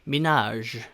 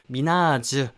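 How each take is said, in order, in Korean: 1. 이름은 거의 울리지 않는 j로 끝나고, 모음은 없어요. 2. 이름은 완전한 'ju' 음절로 끝나요. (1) "주 우까지는 안 하고 지읒 우까지만 하는 그 정도 발음" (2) "한글로 써져 있는 것처럼 발음하시면은 조금 발음이 빗나갈 수가 있어요"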